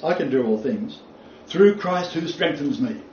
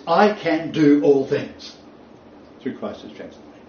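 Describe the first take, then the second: First: "through" raised, and the weight falls on "through Christ who strengthens me"; fundamentalist emphasis. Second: Weight the first half, throw away the second; alternative emphasis. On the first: Lecturer demonstrating the fundamentalist reading with stress. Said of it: "There is the emphasis". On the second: Lecturer demonstrating his own reading, stressing the start. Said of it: "my suggested alternative emphasis is". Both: Shown as a demonstration.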